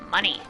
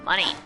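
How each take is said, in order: Both takes have the same delivery.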